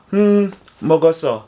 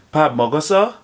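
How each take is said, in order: First: "mogoso" as a statement, no rise at the end; flat answering intonation. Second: "Pap mogoso" asked with the end rising; rising question intonation. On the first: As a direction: answer "Hmm, mogoso" without lifting the end. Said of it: "respond with a flat intonation". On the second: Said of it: "take note of the rising intonation". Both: Shown as a demonstration.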